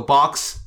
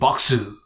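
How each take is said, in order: First: It is said with a plain English accent. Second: It is said with a Japanese accent.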